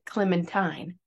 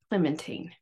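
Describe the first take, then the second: First: The last syllable does not rhyme with Josephine. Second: The last syllable rhymes with Josephine. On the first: This is the usual American way of saying the name. "Americans always pronounce it Clementine" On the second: This is how the woman herself said her name. "how I pronounce Clementine ... she pronounced it rhyming with Josephine"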